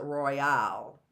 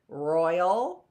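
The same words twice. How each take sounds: First: "royale" stressed on the final AL; weight the end of "royale"; second-syllable stress. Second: "royal" stressed on ROY; weight the front of "royal"; first-syllable stress. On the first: Teacher quizzing on stress, "royale" stressed on the last syllable. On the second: Teacher quizzing on stress, "royal" stressed on the first syllable. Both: Shown as a demonstration. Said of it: "is it royal or is it royale".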